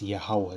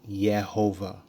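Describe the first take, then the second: First: The name has a w sound in the middle. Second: The name has a v sound in the middle. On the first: The speaker calls it right. "It's Yahweh. There ain't no Yehovah" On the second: The speaker calls it wrong.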